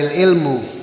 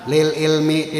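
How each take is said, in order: First: The word ends with a u vowel. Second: The word ends with an i vowel. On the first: The speaker calls it wrong. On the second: The speaker calls it right. "dibaca J R"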